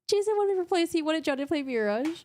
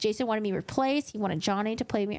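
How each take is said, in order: First: It is read in a mocking, trolling tone. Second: It is read in a serious, straight tone. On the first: The message is meant as a joke. "I gotta read it in a very trolly tone" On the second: The message is taken at face value. "I read it with such a serious tone"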